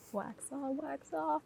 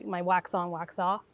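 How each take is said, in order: First: Soft, higher mock sensei; lightly imitated martial arts teacher, much softer; Mister Miyagi. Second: Said in the usual way. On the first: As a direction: hush it like a wise old master. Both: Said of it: "she was like Mister Miyagi".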